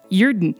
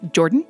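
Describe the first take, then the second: First: The name is said with a Swedish-sounding lilt. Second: The name sounds like the English name Jordan. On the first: "it sounds almost Swedish" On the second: "as in the Canadian or American version of it"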